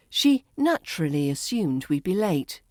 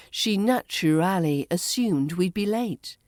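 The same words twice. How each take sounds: First: "naturally" as NATCH-ruh-lee; reduced form. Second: "naturally" as NATCH-uh-RAL-ee; full form. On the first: Teacher models the shortened form for learners, "naturally" as NATCH-ruh-lee. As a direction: squeeze the end of "naturally" together. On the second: Teacher models the long form for learners, "naturally" fully sounded. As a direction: sound out every syllable of "naturally". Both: Shown as a demonstration. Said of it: "becomes naturally".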